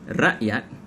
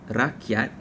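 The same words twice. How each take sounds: First: The middle consonant is a glottal stop. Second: The middle consonant is a K sound. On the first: "the glottal stops" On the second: "the K sounds are now replacing the glottal stops"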